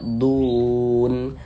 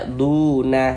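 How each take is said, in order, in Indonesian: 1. Kata ini berakhir dengan konsonan mati. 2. Kata ini berakhir dengan bunyi vokal tambahan. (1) "kita baca dun" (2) "Jangan dibaca duna"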